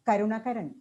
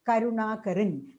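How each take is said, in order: First: All of the a vowels are kept short. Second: Some of the a vowels are held long. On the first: "a non-native speaker ... will tend to uh, pronounce it as" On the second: "when you write it in Malayalam, we will read it as"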